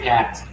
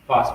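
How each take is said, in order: First: It is said in an American accent. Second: It is said in a British accent. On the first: "The Americans say" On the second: "when British say"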